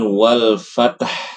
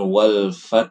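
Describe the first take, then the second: First: A vowel is added between t and h. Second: The final h follows the t cleanly. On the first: "membacanya dengan wal fatah" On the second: "bacanya bukan wal fath"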